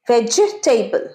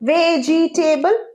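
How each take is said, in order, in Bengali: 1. এটি তিনটি শব্দাংশে বলা হয়, vej-te-ble। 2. এটি চারটি শব্দাংশে বলা হয়, ve-ji-te-ble। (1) "ভেজি নয়" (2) "ভুল"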